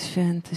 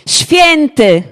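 First: It is said flatly and mechanically, without excitement. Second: It is exclaimed with excited, amazed energy. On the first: It is a dull, routine repetition. The speaker calls it wrong. "to nie jest takie, że oni tam stoją i święty" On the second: It expresses real amazement and delight. The speaker calls it right. "To jest zachwyt"

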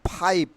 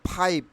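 The two takes are said the same way.

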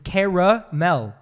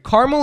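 First: The word is said with three syllables. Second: The word is said with two syllables. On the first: The speaker calls it right. "It's caramel" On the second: The speaker calls it wrong. "Caramel is not right because you're missing an A"

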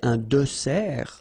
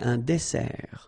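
First: The middle consonant is a buzzing z sound. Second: The middle consonant is a hissing s sound. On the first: The speaker calls it wrong. "you don't say" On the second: The speaker calls it right. "But you say"

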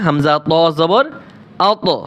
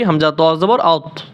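First: The final consonant is released with an echoing bounce. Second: The final consonant is cut off without any bounce. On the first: The speaker calls it right. "এইখানে কলকলা করলে" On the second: The speaker calls it wrong. "আর যদি অশুদ্ধ পড়ি"

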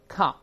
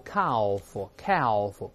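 First: The L sound is silent. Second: The L sound is pronounced. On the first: The speaker calls it right. "L 不发音的" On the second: The speaker calls it wrong. "注意这个L 不发音的不要读calf"

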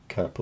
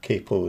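First: It is pronounced the British way. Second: It is pronounced the American way.

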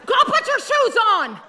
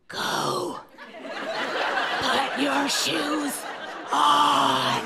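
First: It is shouted loudly. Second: It is whispered quietly.

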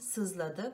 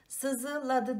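First: No vowel is pronounced after the z. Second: A vowel is pronounced after the z. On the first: The speaker calls it right. "buradaki ı düşmüş" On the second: The speaker calls it wrong. "değil"

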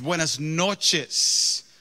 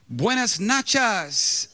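First: The second word is said with its usual vowels. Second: The second word is said with a different vowel. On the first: It is an ordinary evening greeting. The speaker calls it right. "And it's buenas noches" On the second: It sounds like a remark about someone's behind. The speaker calls it wrong. "it's like nice behind"

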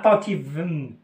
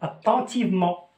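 First: The final ending is silent. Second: The final ending is a nasal vowel. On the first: The speaker calls it wrong. "Je dis pas attentivement" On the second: The speaker calls it right. "je lis en"

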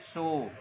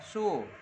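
First: The syllable has a low dipping tone. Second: The syllable has a sharply falling tone. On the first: It means to count. "đọc động từ là su đếm ha. Đọc lại này" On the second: It means a number. "Con số thì đọc là su"

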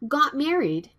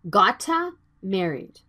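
First: No extra vowel follows 'got' before 'married'. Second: An extra vowel follows 'got' before 'married'. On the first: The speaker calls it right. "Got married is the natural sound" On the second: The speaker calls it wrong. "Please don't say it like gotta married"

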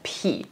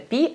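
First: The p sound is aspirated, with a puff of air. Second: The p sound is plain, without a puff of air. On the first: "На китайский манер и вместо пи они говорят пхи" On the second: "вместо пи"

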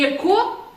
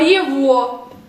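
First: The middle consonant is a k sound. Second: The middle consonant is a v sound. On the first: The speaker calls it wrong. "Не яко" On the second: The speaker calls it right. "а єво"

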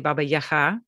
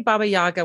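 First: The name is said with a Ukrainian pronunciation. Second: The name is said with an English pronunciation. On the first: The listener speaks Ukrainian. "which is the pronunciation in Ukrainian" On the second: The listener speaks English. "when I'm speaking to English native speakers"

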